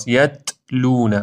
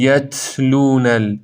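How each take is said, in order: First: یتلون with no pop; right. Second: یتلون with a popping ta; یتلون said with a burst; wrong. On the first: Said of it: "انگار حالت ضربه ای داره". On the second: Teacher showing the popping ta. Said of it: "این اشتباهه". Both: Shown as a demonstration.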